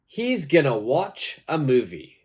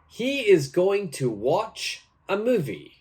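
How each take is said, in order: First: The words are reduced and run together. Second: Each word is said fully and separately. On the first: "using our new pronunciation" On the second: "My answer for this is"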